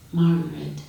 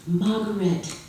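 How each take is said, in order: First: Margaret said flat and subdued; darkened. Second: Higher, delighted Margaret; lit up. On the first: Father watching his daughter leave, darkened Margaret. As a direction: let Margaret fall like a goodbye. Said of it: "and darkens when you leave". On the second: Father greeting his visiting daughter, lit-up Margaret. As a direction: call Margaret the way a lonely father brightens. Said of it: "who lights up at your visits". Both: A narrator's reading.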